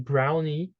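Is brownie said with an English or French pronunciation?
English. It is said with an English pronunciation. French listeners may not understand it. The speaker calls it wrong. "you ask for a brownie, um, people may not be able to understand you"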